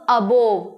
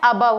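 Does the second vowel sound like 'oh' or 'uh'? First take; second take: oh; uh. First: The second vowel sounds like 'oh'. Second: The second vowel sounds like 'uh'. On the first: The speaker calls it wrong. "इसको कहते हैं सब अबोव" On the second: The speaker calls it right. "अबव होता है"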